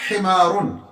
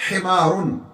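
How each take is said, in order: Both takes have the same delivery.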